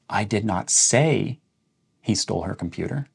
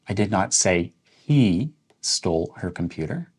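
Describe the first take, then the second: First: The stress falls on "say". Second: The stress falls on "he". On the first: It was written or texted, not spoken. "So we're emphasizing say" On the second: Someone else stole it. "Let's emphasize the word he"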